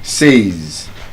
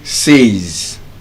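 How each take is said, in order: The two takes are said the same way.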